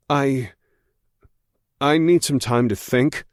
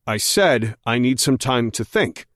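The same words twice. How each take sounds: First: Said in the usual way. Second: "said" pressed hard and firm; insistent, stress on said. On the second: A narrator's reading. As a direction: lean on "said", holding a shaky voice steady. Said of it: "I insist, trying to keep my voice from shaking".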